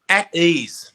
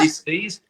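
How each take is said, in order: First: "at ease" falling and a touch louder; settled answer. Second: "Dis-ease" split in two, rising on ease; split word. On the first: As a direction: land "at ease" firmly downward. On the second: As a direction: break "Dis-ease" apart, lift the end. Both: Shown as a demonstration. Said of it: "What was that?".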